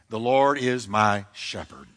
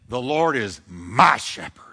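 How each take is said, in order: First: It is said in a plain, neutral way. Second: It is said proudly, with emphatic ownership.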